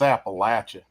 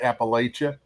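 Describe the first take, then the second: First: The middle sounds like 'apple'. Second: The middle does not sound like 'apple'. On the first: This is how locals say it. The speaker calls it right. "down home they'll say" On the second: This is how outsiders say it. The speaker calls it wrong. "a lot of people say Appalachia"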